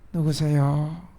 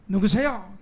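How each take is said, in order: First: It is said in a weak, faint voice. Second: It is said in a strong, forceful voice. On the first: The person is frail or lacks energy. "어떤 사람은 어, 약한 목소리로" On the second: The person is annoyed at being disturbed. "어떤 사람은 강하게"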